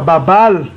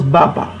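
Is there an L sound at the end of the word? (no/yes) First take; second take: yes; no. First: The word ends with an audible L sound. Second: The word ends without any L sound. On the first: The speaker calls it wrong. "Ça ne se prononce pas Babal" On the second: The speaker calls it right. "Ça se prononce Baba"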